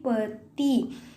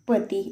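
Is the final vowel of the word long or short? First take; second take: long; short. First: The final vowel is drawn out long. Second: The final vowel is short and clipped. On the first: The speaker calls it wrong. "बड़ी का use कर देते हैं" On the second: The speaker calls it right. "पति एकदम बोल दिया हमने"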